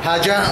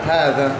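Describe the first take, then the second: First: The middle consonant is a j-like sound. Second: The middle consonant is a dh-like sound. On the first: The speaker calls it wrong. "হাজা বললে তো হবে না" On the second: The speaker calls it right. "দাল দিয়ে"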